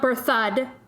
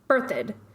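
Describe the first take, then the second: First: The stress is on the second syllable. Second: The stress is on the first syllable. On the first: The speaker calls it wrong. "it's not Berthud" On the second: The speaker calls it right. "Emphasis on the first syllable"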